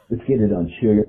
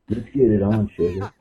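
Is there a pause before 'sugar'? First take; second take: no; yes. First: It runs on without a pause before sugar. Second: There is a pause before sugar.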